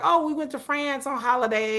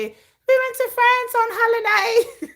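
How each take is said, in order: First: Said in the usual way. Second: High, slow mock English accent; hammed-up posh English holiday talk. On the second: Mocking English people bragging about holidays, in a high English accent. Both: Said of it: "That's my English accent".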